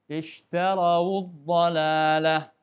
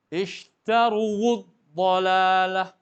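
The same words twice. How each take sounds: First: Very slow, clear "Ishtarawud dhalalah" with waw voiced as wu; correct reading. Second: Very slow, loud "Ishtaruwud dhalalah", waw forced with a long uwu; wrong forced reading. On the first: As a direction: model the correct "Ishtarawud" cleanly and slowly. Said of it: "Maka wawunya didhammahkan". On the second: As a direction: exaggerate the wrong heavy "Ishtaruwud" to show the mistake. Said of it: "kalau wawunya itu dipaksa juga dengan dhammah". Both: Shown as a demonstration.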